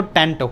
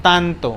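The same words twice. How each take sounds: First: Tanto with an English flat a and aspirated t. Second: Tanto slow, with dental t and open a; Spanish tanto. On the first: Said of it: "English में पढ़ेंगे इसको tanto". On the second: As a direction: tanto said slowly in clean Spanish. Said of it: "in Spanish tanto". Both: Shown as a demonstration.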